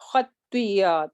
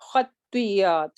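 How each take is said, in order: First: The middle sound is a doubled y. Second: The same.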